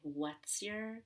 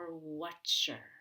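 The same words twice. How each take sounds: First: An s sound links into your. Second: An sh sound links into your.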